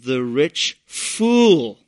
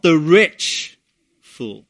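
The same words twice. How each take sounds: First: The word fool carries the stress. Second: The word rich carries the stress. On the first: The problem is the man's foolishness. The speaker calls it right. "the indictment is against the foolishness of this man" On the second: The problem is the man's wealth. The speaker calls it wrong. "not his wealth and money per se"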